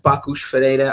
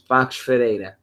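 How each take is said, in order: First: The first word is said fully in two syllables. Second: The first word is clipped to one syllable. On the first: Every part of the name is pronounced. "you can pronounce it all. You can say Bakush Ferreira" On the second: This is how the speaker usually hears and says it. "the way I say it is the way I hear it"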